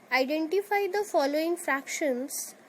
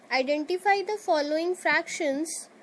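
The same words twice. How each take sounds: The two takes are said the same way.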